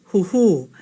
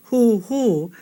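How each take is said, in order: First: Huhu said with the first u short and the second u long. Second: Huhu said with the first u long and the second u short; wrong vowel length. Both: Shown as a demonstration. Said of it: "Kahako is only over the second u".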